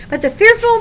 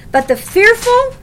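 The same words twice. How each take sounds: First: "fearful" lifted high and loud again; stress on fearful. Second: "fearful" hit high and loud; stress on fearful. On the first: Preacher hammering the word "fearful" to the church, high and loud. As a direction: lean hard on "fearful", high. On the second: Preacher underlining "fearful" for the congregation, high and loud. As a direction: punch the word "fearful" up high. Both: Shown as a demonstration. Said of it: "Underline that word fearful".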